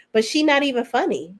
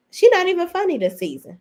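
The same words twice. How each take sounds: First: Said in the usual way. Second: She pitched much higher on the repeat; exasperated emphasis on She; stressed repeat. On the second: Real, not acted. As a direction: hit She hard the second time. Repeats the putdown louder.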